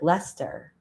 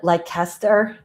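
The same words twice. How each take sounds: First: It is said the British way, as locals say it. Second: It is said as an American would guess it. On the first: This is how people in documentaries said it. The speaker calls it right. "people were like" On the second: The speaker did not know the local pronunciation. The speaker calls it wrong. "like an American who didn't realize"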